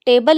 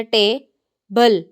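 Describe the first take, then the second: First: Said in the usual way. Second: table in two separate beats with a clear pause between; broken into syllables. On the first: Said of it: "table लफ्ज़ होता है". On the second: Shown as a demonstration. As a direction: split table syllable by syllable for a learner. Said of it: "अगर हम उसको अलहदा-अलहदा करें".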